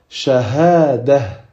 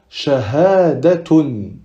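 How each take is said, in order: First: The ending is pronounced with an h sound. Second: The ending is pronounced with a t sound. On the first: The reading stops on the word. "si on s'arrête sur ce mot-là ... c'est comme si c'était un ha" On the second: The reading continues after the word. "Si on aurait continué après ce mot"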